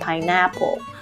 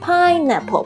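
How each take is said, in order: First: The stress is on a later syllable. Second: The stress is on the first syllable. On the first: The speaker calls it wrong. "不要念成pineapple" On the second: The speaker calls it right. "这个重音是在pine 上面，所以呢听起来pine 比较高"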